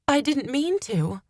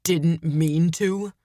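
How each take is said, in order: First: High-pitched desperate plea. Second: Slow, disgusted echo. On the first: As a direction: plead desperately with the accuser. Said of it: "I said desperately". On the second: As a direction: throw the words back in disgust. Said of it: "threw my words back at me in disgust". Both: A narrator's reading.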